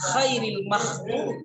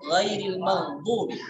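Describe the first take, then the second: First: The first word begins with a voiceless kh sound. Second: The first word begins with a voiced gh sound. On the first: It changes the meaning to the best of those. The speaker calls it wrong. "Kita tidak boleh baca khairil maghdub" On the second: It means other than those who earned anger. The speaker calls it right. "Sama halnya dengan dalam surah Al-Fatihah"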